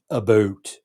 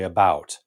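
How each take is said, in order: First: The vowel sounds like the one in boot. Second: The vowel sounds like the one in out. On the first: This is the stereotyped small-town or East Coast form. "I don't hear people saying about here" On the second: This is what people on the West Coast say. "They say about"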